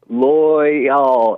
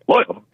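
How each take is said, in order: First: The word is sounded out slowly. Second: The word is said very fast.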